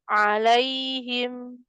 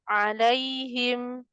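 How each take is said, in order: No difference in how they are said.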